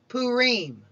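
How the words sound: It is pronounced the Eastern Jewish way. "In Eastern tradition, it is called Purim"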